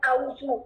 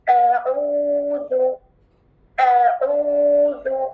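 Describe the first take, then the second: First: अऊज़ु said short, with a hamza instead of ain; quick wrong अऊज़ु; wrong sound. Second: अऊज़ु drawn out slowly, with ain from the throat; correct recitation. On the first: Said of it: "देखिए गलत sound क्या है". (अऊज़ु गलत आवाज़ में) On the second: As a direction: stretch अऊज़ु slow and clear. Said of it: "differentiate करें". (अऊज़ु सही तिलावत) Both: Shown as a demonstration.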